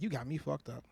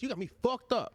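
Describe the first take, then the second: First: It is said in a calm, controlled tone. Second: It is said in a harsh, confrontational tone. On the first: This sets a calm tone and avoids an argument. The speaker calls it right. "it's the tone" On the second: This starts an argument. The speaker calls it wrong. "that's gonna start an argument"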